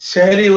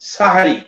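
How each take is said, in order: First: The first vowel is an 'e' sound. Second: The first vowel is an 'a' sound. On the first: The speaker calls it wrong. "সেহরি উচ্চারণ নয়, ভুল" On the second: The speaker calls it right. "সাহারি বা ফতহে সিন"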